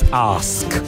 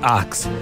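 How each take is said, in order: First: The s sound comes before the k sound. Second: The k sound comes before the s sound. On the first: The speaker calls it right. "this, before the k, not the k, before this" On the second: The speaker calls it wrong. "not ax"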